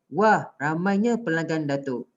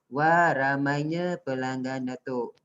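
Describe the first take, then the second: First: It is read in an excited, lively tone. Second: It is read in a flat, even tone. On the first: The speaker calls it right. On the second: The speaker calls it wrong. "Awak tak boleh baca"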